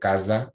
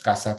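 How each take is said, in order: First: The s is a voiced buzz, like z. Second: The s is a voiceless hiss. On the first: This is how Portuguese speakers say it. "pues se dice casa, ¿verdad? Con la Z" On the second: This is how Spanish speakers say it. "lo que nosotros decimos casa"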